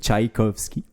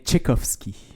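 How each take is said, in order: First: The name has a common French pronunciation. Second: The name has a Russian-style pronunciation. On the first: "la prononciation commune" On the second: "c'est bien Tchaïkovski"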